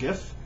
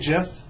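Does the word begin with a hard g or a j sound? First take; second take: hard g; j sound. First: The word begins with a hard g sound. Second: The word begins with a soft j sound. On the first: "if I see the word G-I-F-T, I do not pronounce it JIFT. So I just pronounce it GIF" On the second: "I heard you're supposed to say JIF"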